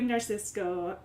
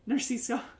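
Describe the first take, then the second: First: The name ends with a k sound before o. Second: The name ends without a k sound before o. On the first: The speaker calls it wrong. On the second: The speaker calls it right.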